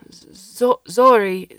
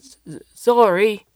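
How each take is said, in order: First: Loud stammering yell; shouting. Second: Slow, loud stammering call; shouting. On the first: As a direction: call out in fury. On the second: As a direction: drag out the name in a furious shout. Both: Acted. Alberto calls after alien furiously.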